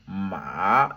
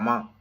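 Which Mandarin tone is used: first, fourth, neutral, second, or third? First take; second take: third; neutral. First: It is said with a pitch that dips, then rises. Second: It is said with no tone, light and short. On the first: "avec le troisième ton" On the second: "ça n'a pas de ton"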